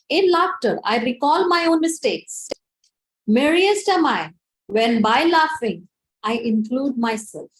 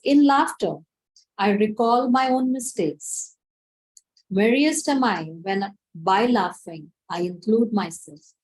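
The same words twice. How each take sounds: First: It is said loudly. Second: It is said in a normal voice.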